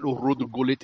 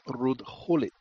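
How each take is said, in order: First: The name is said with an English pronunciation. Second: The name is said with a Dutch pronunciation. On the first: The speaker calls it wrong. "it's not Ruud Gullit" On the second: The speaker calls it right. "it's Ruud Gullit"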